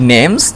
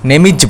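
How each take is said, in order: First: The word 'is' is contracted to an s. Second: The word 'is' is a separate syllable. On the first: The speaker calls it right. "My নেমস" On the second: The speaker calls it wrong. "নেমিজ বলবে না"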